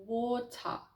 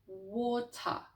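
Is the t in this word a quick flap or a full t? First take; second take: full t; full t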